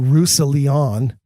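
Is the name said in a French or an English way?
English. The name is said with English-style sounds. "At least I don't say"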